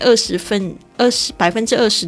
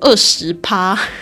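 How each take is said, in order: First: Percent is said in full with two syllables. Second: Percent is clipped to a single syllable 'pa'. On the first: The speaker calls it right. "正确的说法应该是percent" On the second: The speaker calls it wrong. "不要念成趴"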